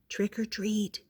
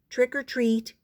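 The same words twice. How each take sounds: First: It is said very softly. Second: It is said a little louder.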